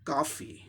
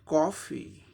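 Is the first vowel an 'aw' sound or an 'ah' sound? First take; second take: ah; aw. First: The first vowel is an open 'ah' sound. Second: The first vowel is a rounded 'aw' sound. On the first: "ओ की जगह आ sound आ जाएगा" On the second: "ये British English हो गया।"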